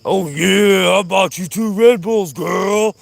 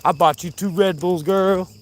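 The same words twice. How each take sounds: First: Loud, high, exaggerated put-on voice; hammed-up sweet talk. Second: Higher-pitched, teasing sweet-talk; playful put-on sweet talk. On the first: Vlogger boasting of Red Bulls to girlfriend, hammed-up loud high voice. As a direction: ham it up with stretched, showy words. Same line repeated, hammed up. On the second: Vlogger teasing girlfriend about Red Bulls, playful higher voice. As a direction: croon it lightly at a sweetheart. Playful repeated line, then hammed up.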